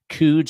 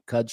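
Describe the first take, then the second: First: The vowel does not match the vowel in Cubs. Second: The vowel matches the vowel in Cubs. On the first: The speaker calls it wrong. "we were debating Coods or Cuds" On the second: The speaker calls it right. "Cuds for the win. Rhymes with Cubs"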